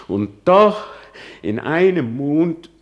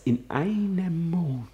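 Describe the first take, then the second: First: In einem Mond shouted high and loud, rising; outraged cry. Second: In einem Mond whispered high with a falling end; bitter whisper. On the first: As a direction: fling it out in disbelief. Soliloquy, outrage. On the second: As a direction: hiss it under your breath in disbelief. Soliloquy, repeated lament. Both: Acted.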